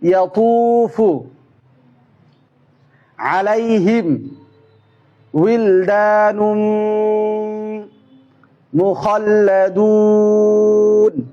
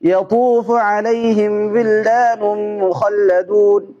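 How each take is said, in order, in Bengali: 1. এটি একটি একটি শব্দ করে পড়া হয়। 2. এটি দ্রুত পড়া হয়। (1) "শব্দ শব্দ" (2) "দ্রুত করে"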